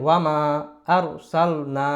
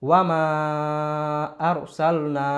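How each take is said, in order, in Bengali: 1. 'm'-এর পরের স্বরটি ছোট করে পড়া হয়। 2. 'm'-এর পরের স্বরটি লম্বা করে পড়া হয়। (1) "এক আলিফ টান" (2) "তিন আলিফ টান"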